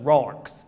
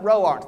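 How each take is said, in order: First: The vowel sounds like the word 'our'. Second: The vowel sounds like the word 'oar'. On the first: This is the plain, poorer branch of the family. "they's just Rourkes" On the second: This is the wealthy, educated branch of the family. "Them what pronounce the name Roark"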